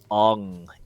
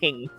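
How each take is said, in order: First: The vowel is a broad 'ah' sound. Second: The vowel is a flat 'a' as in 'hang'. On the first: This is how the film says the name. The speaker calls it wrong. "they call him Ong in that movie" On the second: This is the name's original pronunciation. The speaker calls it right. "it's Aang"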